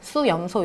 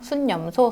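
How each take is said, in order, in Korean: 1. su 뒤에 ㄴ 소리가 붙지 않아요. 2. su 뒤에 ㄴ 소리가 붙어요.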